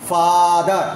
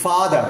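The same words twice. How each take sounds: First: ফাদার with the first আ held very long; elongated vowel. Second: Said in the usual way. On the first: Shown as a demonstration. Teacher isolating the vowel in father, elongated আ. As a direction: stretch the open আ in ফাদার. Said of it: "more elongated". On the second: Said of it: "সেখানে যে আটা".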